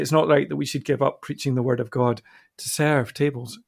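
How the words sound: Serving tables is said with a reverent tone. Serving is an important role to be honoured. "it could be said reverently"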